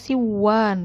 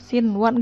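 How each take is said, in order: First: The n sound is dropped before the w. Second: The n sound is kept before the w. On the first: The speaker calls it wrong. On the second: The speaker calls it right.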